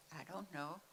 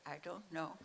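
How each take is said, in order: Both takes have the same delivery.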